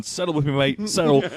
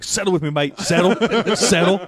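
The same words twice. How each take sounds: First: A mild Aussie lilt at normal volume; just a hint of the Australian guy; lightly voiced Aussie wrangler. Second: Higher, louder Australian bloke calming an animal; loud Aussie wrangler. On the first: Retelling the deer headlock, lightly voiced Aussie. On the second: Retold or imitated. Retelling the kangaroo guy, higher and louder Aussie voice. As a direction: call it out like a wrestling Aussie. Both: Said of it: "a crazy Australian".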